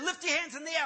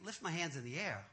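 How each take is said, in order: First: High, raised mock-pastor voice; preacher's command. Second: Low, soft, doubtful echo; puzzled inner thought. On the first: Pastor ordering the man before praying, loud command. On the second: Retold or imitated. Man doubting the pastor's order to himself, quietly puzzled. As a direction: question the order under your voice. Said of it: "And I'm thinking".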